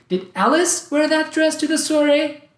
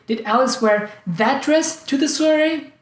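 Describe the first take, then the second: First: The word Alice is stressed. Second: The word that is stressed. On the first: Someone else was supposed to wear it. "I thought it was someone else who was supposed to wear it" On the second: She was supposed to wear another dress. "I thought she was planning to wear some other dress"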